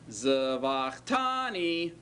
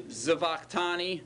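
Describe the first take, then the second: First: TANI drawn out long after zavach; stress on tani. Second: Said in the usual way. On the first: Shown as a demonstration. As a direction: stretch out "tani" so the ending stands out. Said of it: "do you hear the tani ending". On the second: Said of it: "Do you hear the form?".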